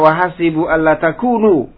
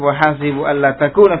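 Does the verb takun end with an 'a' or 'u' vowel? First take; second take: u; a. First: The verb ends with a 'u' vowel. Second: The verb ends with an 'a' vowel. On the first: The particle is the lightened form of the heavy one. "Dibaca juga dengan rafa" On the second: The particle is the infinitive one that governs the verb. "dibaca nasab"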